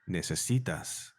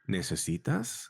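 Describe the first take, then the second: First: It is said with a commanding statement tune. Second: It is said with a questioning tune. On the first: The listener is being told they need something. "is either a question or a command. So, necesitas, you need" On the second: The listener is being asked what they need. "very slight difference in tone, is what do you need?"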